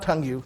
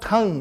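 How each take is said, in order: First: The word ends with an extra 'you' syllable. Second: The word ends plainly, without an added syllable. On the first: The speaker calls it wrong. "not tongue you" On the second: The speaker calls it right. "you have to pronounce tongue"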